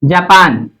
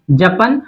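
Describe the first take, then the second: First: जापान with both aa vowels drawn long. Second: जपन with both vowels short. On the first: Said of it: "आपने यहाँ पे लिखा जापान". (जापान, दोनों आ लंबे खींचकर) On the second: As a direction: say जपन quickly, no long aa. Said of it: "आपने यहाँ पे लिखा जपन". (जपन, दोनों स्वर छोटे) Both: Shown as a demonstration.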